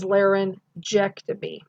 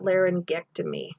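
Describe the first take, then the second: First: The g is sounded softly like j. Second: The g is sounded hard like g. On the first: The speaker calls it right. "the soft G, which is actually the J sound" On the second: The speaker calls it wrong. "it's not"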